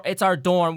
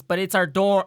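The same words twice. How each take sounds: First: Higher, louder fairy hitting our; fairy stressing our. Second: Higher, louder fairy hitting dorm; fairy stressing dorm. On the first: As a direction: lean on our, it's OUR dorm. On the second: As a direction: punch the word dorm. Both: Acted. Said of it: "looks around and says".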